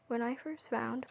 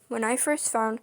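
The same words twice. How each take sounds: First: It is spoken in a softer, quieter voice. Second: It is spoken at a normal volume.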